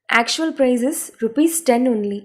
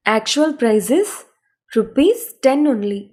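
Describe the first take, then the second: First: Slow, careful English sentence; slow model read. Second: Slow, broken into two chunks with a pause; teacher splitting the sentence; chunked phrasing. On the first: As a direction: read it slowly for learners to copy. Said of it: "English model sentence, slow repeat". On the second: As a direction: pause after "is" before "rupees ten only". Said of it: "split into chunks for learners". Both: Shown as a demonstration.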